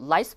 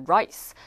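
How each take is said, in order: First: "rice" said as "lice"; mispronounced R. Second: "rice" with a proper English r; R sound. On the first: Learner's slip shown, "rice" said as lice. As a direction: put an l where "rice" has r. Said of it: "내가 발음 잘못해가지고". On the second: Teacher shows the correct word, "rice" with r. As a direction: start "rice" on a rounded r. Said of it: "그건 R 사운드거든요". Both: Shown as a demonstration.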